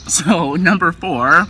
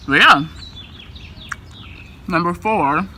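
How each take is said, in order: First: Number four repeated slowly through a laugh. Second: Number four said while chewing; mouth full. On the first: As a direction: laugh it out and slow down. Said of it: "You heard me". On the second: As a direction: say it around a mouthful, distracted by a spoon. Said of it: "trying to hold the spoon and struggling". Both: Real, not acted.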